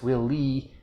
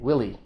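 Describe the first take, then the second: First: Both syllables get equal stress. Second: The stress is on the first syllable. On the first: It sounds like an echo of the question. The speaker calls it wrong. "she said both syllables with equal stress" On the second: It is a man's name. The speaker calls it right. "a guy's name"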